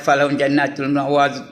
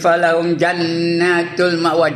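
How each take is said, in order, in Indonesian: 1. Dibaca cepat, tanpa dengung yang ditahan. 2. Dibaca lebih pelan, dengan dengung yang ditahan. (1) "Main langgar aja" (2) "Wajibul gunnah"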